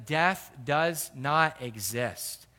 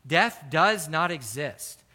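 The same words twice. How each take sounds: First: Slow emphasis. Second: Slower and louder repeat, each word weighed; emphatic restatement. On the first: Preacher slows on key line. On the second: Preacher hammering the point to his flock, slow and firm. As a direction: drive home that death does not exist. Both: Acted.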